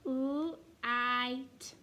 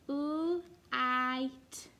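The two takes are said the same way.

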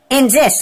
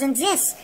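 First: Said in the usual way. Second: Much softer, almost under breath; a hushed eerie echo of the words; quiet repeat. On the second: Retold or imitated. Mother's quote, repeated.

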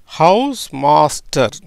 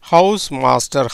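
First: house master spoken slowly, word by word; slow demo. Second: Said in the usual way. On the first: Shown as a demonstration. Teacher showing students how it sounds, slow and deliberate. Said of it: "எப்படி வருது பாருங்க". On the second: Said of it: "இப்படி தான் உச்சரிக்கணும்".

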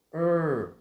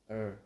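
First: "er" high, loud and long; tense stressed er. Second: "er" short, light, at an everyday pitch; relaxed er. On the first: Teacher contrasting two sounds, tense loud er. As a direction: push "er" out with a forceful tongue. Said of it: "lưỡi của mình sẽ phải dùng lực khá là nhiều". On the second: Teacher contrasting two sounds, relaxed short er. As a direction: release "er" loosely without stress. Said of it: "thì thật thả lỏng thôi". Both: Shown as a demonstration.

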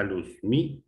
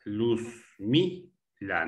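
First: "Luzmila" quicker, lifting the middle syllable mi; stress on MI. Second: "Luzmila" very slow, luz-mi-la with gaps; syllable by syllable. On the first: Teacher confirming the answer, stressed syllable lifted. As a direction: punch mi in "Luzmila" without long gaps. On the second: Teacher showing where the stress falls, syllable by syllable. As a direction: pause between the syllables of "Luzmila". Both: Shown as a demonstration. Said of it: "La tónica".

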